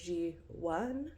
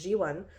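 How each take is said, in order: First: The second syllable does not sound like 'won'. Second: The second syllable sounds like the English 'won'. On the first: The speaker calls it right. "not one like you won something" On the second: The speaker calls it wrong. "I'm saying it wrong"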